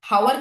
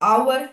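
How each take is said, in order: First: The word begins with an h sound. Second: The word begins with a vowel sound. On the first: The speaker calls it wrong. "হাওয়ার কিন্তু আমরা বলি না" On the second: The speaker calls it right. "আমরা বলি হচ্ছে আওয়ার"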